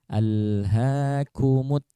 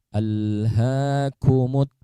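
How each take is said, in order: No difference in how they are said.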